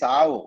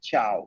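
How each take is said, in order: First: The word begins with an s sound. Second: The word begins with a ch sound. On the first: The speaker calls it wrong. "Never say sao" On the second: The speaker calls it right. "சா சிஹெச் மாதிரி"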